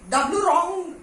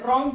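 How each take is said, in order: First: The word begins with a pronounced w sound. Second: The word begins with an r sound. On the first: The speaker calls it wrong. "डब्ल्यू रॉन्ग ऐसा कुछ नहीं बोलते" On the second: The speaker calls it right. "रॉन्ग बोलते हैं"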